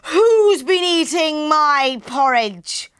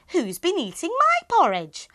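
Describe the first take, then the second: First: It is said in a very loud voice. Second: It is said in a medium-loud voice.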